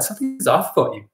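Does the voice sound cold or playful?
playful. The voice sounds warm and playful. The remark comes across as lighthearted teasing. The speaker calls it right. "The tonality changes"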